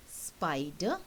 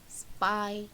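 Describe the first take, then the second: First: Said in the usual way. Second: "spider" cut in two, SPI, pause, DER; split into syllables. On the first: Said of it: "you can cut up into two syllables". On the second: Shown as a demonstration. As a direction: say "spider" slowly, one syllable at a time. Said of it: "cut up into two syllables".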